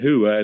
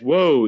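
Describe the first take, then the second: First: It is said as two syllables, like 'hoo-ah'. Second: It is said as one syllable, like 'woe'. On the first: The speaker calls it wrong. "I'd still pronounce that hooah" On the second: The speaker calls it right. "That's whoa, idiot, to stop that horse with"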